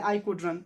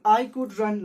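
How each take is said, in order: First: Said in the usual way. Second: Very slow, loud reading aloud. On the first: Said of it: "last में लिखा है". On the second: Shown as a demonstration. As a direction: read it out word by word. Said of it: "last में लिखा है I could run". (बहुत धीरे और ज़ोर से पढ़ना)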